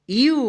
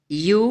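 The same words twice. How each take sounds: First: यू with a long, high oo; long vowel. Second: यू with a brief, low rising u; short vowel. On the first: Teacher reciting the य series to learners, long vowel. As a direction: stretch the oo of यू high. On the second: Teacher reciting the य series to learners, short vowel. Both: Shown as a demonstration. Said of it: "य का बारह खड़ी".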